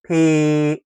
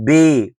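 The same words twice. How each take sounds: First: "بي" with an unvoiced P, pé; "بي" as a crisp P sound, French pé; French letter P. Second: "بي" with a voiced B, bé; "بي" as French B instead of P; wrong letter, B. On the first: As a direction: say "بي" as pay, lips popping. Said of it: "اسمها". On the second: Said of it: "مش بي". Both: Shown as a demonstration.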